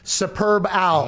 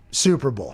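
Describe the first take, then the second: First: The b ends the first word: Superb Owl. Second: The b begins the second word: Super Bowl. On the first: The speaker calls it right. "Superb Owl, no space" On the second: The speaker calls it wrong. "I read that wrong"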